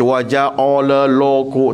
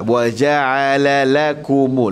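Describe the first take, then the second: First: The consonants are pronounced thick and heavy. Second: The consonants are pronounced soft and light. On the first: The speaker calls it wrong. "pastikan jangan kita baca wa ja'ala lakum, tak" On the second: The speaker calls it right. "Lembutkan semua"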